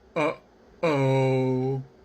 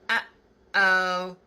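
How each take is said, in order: First: Said with a lowered larynx, sounding dark and low. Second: Said with a raised larynx, sounding bright and high. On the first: "If the larynx is low" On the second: "If the larynx is high"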